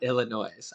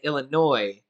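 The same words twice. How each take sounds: First: The word ends with an audible S sound. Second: The word ends without any S sound. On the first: The speaker calls it wrong. "not Illinois" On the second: The speaker calls it right. "saying Illinois without the S"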